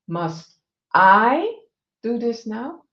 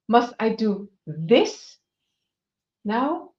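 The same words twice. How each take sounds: First: The stress falls on the word I. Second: The stress falls on the word this.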